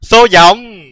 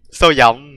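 First: High, loud announcing call; raised-voice read-out; loud exclamation. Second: Said in the usual way. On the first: Real, not acted. Đọc to dòng chữ rồi lặp lại.

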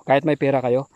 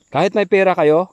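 First: Said in the usual way. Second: Louder, higher insistent warning; emphatic. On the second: Real, not acted. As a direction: push the words out to warn them. (mariing babala, mas malakas)

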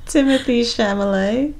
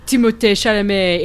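First: Timothy said with English TH, Chalamet as SHAL-uh-may; Americanized. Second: Timothée said tee-mo-TAY in French style; Timothée Chalamet with French vowels; French pronunciation. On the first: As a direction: Chalamet said tentatively as SHAM-uh-lay. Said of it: "unsure name pronunciation". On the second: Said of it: "corrects to French pronunciation". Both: Shown as a demonstration.

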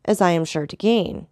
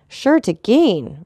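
First: Said in the usual way. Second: Slow, amazed, higher and louder; amazed repeat. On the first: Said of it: "repeated Beauchamp". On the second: A narrator's reading. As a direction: echo it in disbelief, slowly. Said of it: "looking with amazement at the Count".

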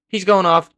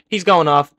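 No difference in how they are said.

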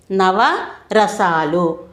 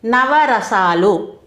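First: నవరసాలు repeated even more slowly; నవరసాలు dragged out very slowly. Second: Each syllable of నవరసాలు drawn out slowly; నవరసాలు spoken very slowly, syllable by syllable; slow dictation. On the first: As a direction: say నవరసాలు again, stretched out for note-taking. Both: Shown as a demonstration. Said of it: "అవి కొన్ని ఉదాహరణలు చూద్దామండి".

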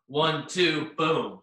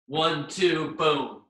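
The two takes are said the same way.

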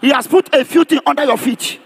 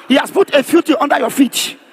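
No difference in how they are said.

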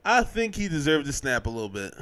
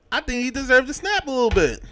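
First: Said in the usual way. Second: Emphatic. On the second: Shown as a demonstration.

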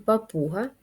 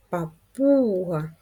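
First: Said in the usual way. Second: Папуга with the middle У stretched long; stress on second syllable. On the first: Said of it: "Давайте зробимо звуковий аналіз". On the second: Shown as a demonstration. Teacher showing pupils the stress, Папуга with a long drawn-out У. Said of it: "Визначимо наголос".

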